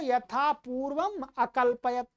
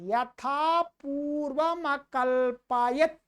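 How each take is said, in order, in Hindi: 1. purvam और akalpayat के बीच विराम आता है। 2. शब्द बिना किसी विराम के एक साथ जुड़कर बोले जाते हैं। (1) "वैसे है तो" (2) "इसको मिला करके बोलेंगे"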